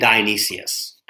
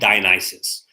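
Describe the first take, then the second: First: The name ends with an extra -sius syllable. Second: The name ends with a short -sus syllable. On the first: The speaker calls it wrong. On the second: The speaker calls it right.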